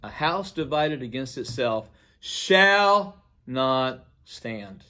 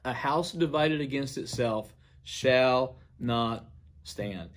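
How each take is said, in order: First: Slow proclamation that hammers the word "shall"; stress on SHALL. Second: Slow, deliberate proclamation, only lightly projected; mild retold declaration. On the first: Retold or imitated. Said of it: "he emphasized the word shall". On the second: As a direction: retell a solemn public pronouncement, pausing before the last word, dropping on "stand". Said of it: "stated in a very loud voice".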